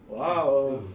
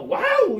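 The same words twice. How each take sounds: First: It sounds sarcastic and mocking. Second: It sounds genuinely amazed and impressed.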